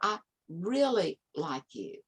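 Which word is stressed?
really. The emphasis falls on the word really. It questions how strong the liking is. "And then how is that really?"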